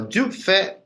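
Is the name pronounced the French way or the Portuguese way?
French. The name is said with French pronunciation. "que é a pronúncia francesa adequada disso"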